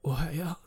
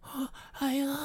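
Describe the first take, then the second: First: It is said in a manly, tough voice. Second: It is said panting, out of breath.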